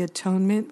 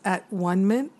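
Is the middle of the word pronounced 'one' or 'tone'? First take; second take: tone; one. First: The word is said as a-tone-ment. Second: The word is said as at-one-ment. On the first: "I don't know why we pronounce it the atonement" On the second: "versus at-one-ment"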